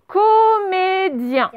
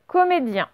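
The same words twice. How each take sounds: First: Very slow, high, syllables held long; high, stretched-out dictation voice. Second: Said in the usual way. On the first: Shown as a demonstration. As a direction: sing out each syllable for pupils writing it down. Dictating a word to pupils.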